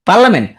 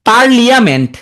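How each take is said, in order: First: The word has no 'ee' sound after 'parl'. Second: The word has an 'ee' sound after 'parl'.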